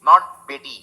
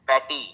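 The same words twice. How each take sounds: First: "not" punched before "Beti"; firm correction. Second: "Beti" said with the short Hindi e; the mistaken vowel; wrong sound demo. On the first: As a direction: reject "Beti" firmly. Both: Shown as a demonstration.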